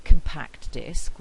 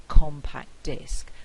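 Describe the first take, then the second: First: "compact" stressed on its second syllable before disc; louder, deliberate com-PACT disc; unshifted stress. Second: "compact" stressed on its first syllable before disc; louder, deliberate COM-pact disc; shifted stress. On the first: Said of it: "the stress is on the second syllable". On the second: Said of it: "the stress moves from this syllable". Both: Shown as a demonstration.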